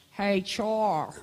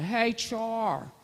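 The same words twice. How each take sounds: First: A hint of Pennsylvania accent, lightly imitated; cousin's Pennsylvania greeting, lightly imitated. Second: Put-on higher Pennsylvania accent greeting. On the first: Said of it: "That's how he talked". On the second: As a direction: imitate the cousin's Pennsylvania hello. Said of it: "he's got that Pennsylvania accent".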